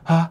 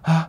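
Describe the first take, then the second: First: The vowel starts with breathy, leaking air. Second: The same.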